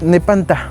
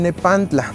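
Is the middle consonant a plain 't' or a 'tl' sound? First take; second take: plain t; tl. First: The word has a plain 't' sound before the end. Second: The word has a 'tl' sound before the end. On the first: "con una variante con pura T" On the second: "Este nombre está pronunciado en la variante náhuatl T y L"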